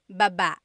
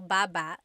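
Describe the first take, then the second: First: The stress is on the second syllable. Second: The stress is on the first syllable.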